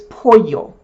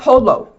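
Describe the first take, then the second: First: The middle consonant is sounded like a Y. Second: The middle consonant is sounded like an L. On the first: The speaker calls it right. "it's pollo. Always remember, double L is a Y" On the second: The speaker calls it wrong. "It's not polo"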